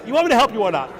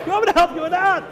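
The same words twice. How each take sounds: First: Said in the usual way. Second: Repeated much higher and pushed, exasperated; the demon losing patience, voice jumping up; insistent demand. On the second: Acted. The insulted shade presses Reb Shimon, higher exasperated repeat. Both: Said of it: "the shade got all insulted".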